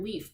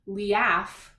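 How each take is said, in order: First: Only a single long E vowel is sounded. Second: Both vowels are sounded separately, E then A. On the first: The speaker calls it right. "we hear leaf because that A, its job right now is not to make a sound" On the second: The speaker calls it wrong. "We don't hear liaf"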